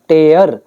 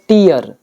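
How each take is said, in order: First: The vowel sounds like 'tay' before the r. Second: The vowel sounds like 'tee' before the r. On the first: "जो आंसू होता है उसका pronunciation होता है टेयर" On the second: "ये होता है टीयर"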